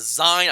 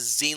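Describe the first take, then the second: First: The vowel does not rhyme with magazine. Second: The vowel rhymes with the end of magazine. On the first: "I read it as Zine" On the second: "pronounced as zine like magazine"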